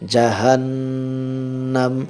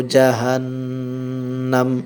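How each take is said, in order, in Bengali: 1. শব্দটি খালি 'm' ধ্বনি দিয়ে শেষ হয়। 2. শব্দটি খালি 'm' ধ্বনি দিয়ে শেষ হয়।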